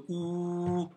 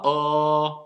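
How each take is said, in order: First: Long held, rounded ou; son correct. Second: Long held open o; son fautif. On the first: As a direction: sustain a pure ou vowel. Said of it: "prononcer bien le ou". (son correct ou, bien tenu) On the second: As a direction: sustain the wrong o instead of ou. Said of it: "et pas o". (son fautif o, bien tenu) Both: Shown as a demonstration.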